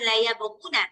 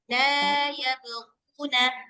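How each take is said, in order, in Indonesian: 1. Vokal pada 'la' diucapkan pendek. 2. Vokal pada 'la' diucapkan panjang. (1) "Jadi bukan" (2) "lanya panjang"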